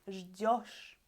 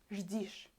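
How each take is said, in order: First: The stressed ending has a clear 'yo' vowel. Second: The stressed ending has an 'ee' vowel. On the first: The speaker calls it right. "We hear this ending really clear" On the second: The speaker calls it wrong. "I will put и instead of you"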